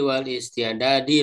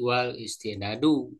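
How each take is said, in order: First: The final word ends with an i vowel. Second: The final word ends with a u vowel. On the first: Only the preparation of jihad is intended. The speaker calls it wrong. "ah bukan" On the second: Both intending jihad and preparing for it are required. The speaker calls it right. "ke kosdu berarti wal istidadu"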